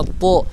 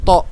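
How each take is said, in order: First: "to" with a heavy, rounded t; thick tha. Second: "to" with an ordinary light t; wrong t. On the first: Teacher models the letter, "to" with heavy t. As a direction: raise the tongue back for "to". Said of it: "lidahnya harus naik". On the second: Teacher shows the mistake, "to" with light t. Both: Shown as a demonstration.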